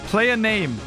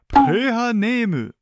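First: It is said with a plain English pronunciation. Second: It is said with a Japanese-style pronunciation.

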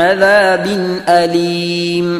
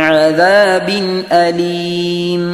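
Both takes have the same delivery.

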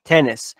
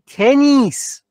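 First: It is said with an English vowel sound. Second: It is said with a Persian vowel sound. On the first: The speaker calls it right. "ایهاتو اینجا بود که بهت گفتم" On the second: The speaker calls it wrong. "یک عمر گفتی تنیس"

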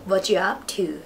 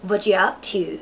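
Both takes have the same delivery.

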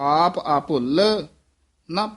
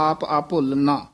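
First: There is a short pause before ਨਾ. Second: The words run on with no pause before ਨਾ. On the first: The speaker calls it right. "ਇੱਥੇ ਥੋੜਾ ਜਿਹਾ ਠਹਿਰਾ ਦੇ ਦੇਣਾ" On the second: The speaker calls it wrong. "ਇਉਂ ਨਹੀਂ ਕਹਿਣਾ"

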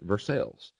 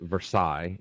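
First: It is pronounced the local Kentucky way. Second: It is pronounced the usual way used elsewhere. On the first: This is how local people say the town's name. "here in Kentucky, they pronounce it" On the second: This is how the rest of the world says it. "everywhere else in the world, they pronounce it"

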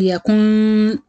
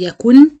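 First: The final n is a nasal hum. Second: The final n is clearly pronounced. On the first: "ولا ينطق غنة" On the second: "ما حدش يحاول ينطق النون"

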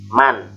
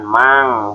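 First: The final n sound is pronounced clearly. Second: The final n sound is not pronounced clearly. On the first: The speaker calls it right. "maka si nunnya harus dibaca jelas" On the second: The speaker calls it wrong. "bukan mang"

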